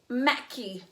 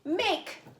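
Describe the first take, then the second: First: The word ends with an extra vowel sound. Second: The word ends in a plain k sound. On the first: The speaker calls it wrong. "does that sound like a silly word?" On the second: The speaker calls it right. "I hear it"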